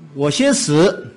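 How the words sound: It is said in Cantonese-accented Mandarin. "那个广东人的普通话他讲话他说"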